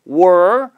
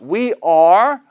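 First: The words merge into one syllable like 'were'. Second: Both words are said fully and separately. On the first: "아니면 were"

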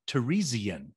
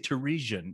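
First: The word is said with an extra syllable. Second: The word is said with fewer syllables. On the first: "She puts an extra syllable in there" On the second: "I say Theresian"

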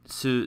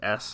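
First: The syllable ends with a clear u vowel. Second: Only the s sound is heard, no vowel.

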